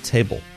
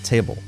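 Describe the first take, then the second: First: The final L is cut short and barely heard. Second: The final L is cut short and barely heard.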